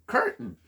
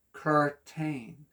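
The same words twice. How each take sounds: First: Said in the usual way. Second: "Curtain" sounded out as cur-tain, with a full "tain"; sounded-out syllables. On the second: Shown as a demonstration. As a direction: say "Curtain" slowly in two even syllables. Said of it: "It is how many syllables?".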